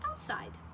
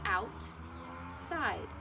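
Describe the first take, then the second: First: The two parts are joined without a pause. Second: The two parts are said apart with a pause.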